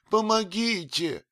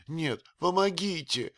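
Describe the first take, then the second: First: Помогите shrieked very high and loud; scream for help. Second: High frightened cry for помогите; cry for help. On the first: Old nurse screaming помогите at the stranger. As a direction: shriek помогите at full force. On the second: Old nurse calling помогите in fright. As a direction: call помогите, already high. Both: A narrator's reading. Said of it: "закричала от страха".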